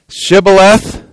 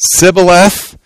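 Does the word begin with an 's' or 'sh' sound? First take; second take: sh; s. First: The word begins with an 'sh' sound. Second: The word begins with an 's' sound. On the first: The speaker is from Gilead. The speaker calls it right. "say Shibboleth" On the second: The speaker is from Ephraim. The speaker calls it wrong. "If he said Sibboleth, because he could not pronounce the word correctly"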